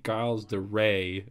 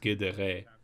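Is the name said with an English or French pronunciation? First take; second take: English; French. First: The name is said with an English pronunciation. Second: The name is said with a French pronunciation. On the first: The speaker calls it wrong. "is not really his name" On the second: The speaker calls it right. "it's Guédéré"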